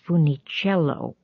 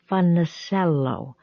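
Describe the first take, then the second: First: The name has an Italian pronunciation. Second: The name has an Anglicized pronunciation. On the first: This is the family's original way of saying it. "not as Funicello" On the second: It is said as someone unfamiliar with Italian surnames might. "something that sounded like Funicello"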